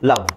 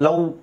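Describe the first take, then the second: First: The v is said with lower lip on teeth. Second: The v is said with rounded lips, like w. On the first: The speaker calls it right. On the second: The speaker calls it wrong.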